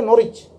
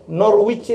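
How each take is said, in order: First: "Norwich" with silent w, Norrich; correct English Norwich. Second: "Norwich" with the w sounded, Nor-wich; spelling reading of "Norwich", Nor-wich; Norwich as spelt. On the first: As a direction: drop the w from "Norwich". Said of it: "itu bacanya Norwich". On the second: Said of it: "Norwich itu bacanya Norwich". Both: Shown as a demonstration.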